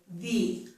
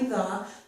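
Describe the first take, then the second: First: The word is said with strong stress. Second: The word is said plainly and unstressed. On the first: "because I'm stressing it, I'm going to pronounce it this way" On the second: "which is normally the"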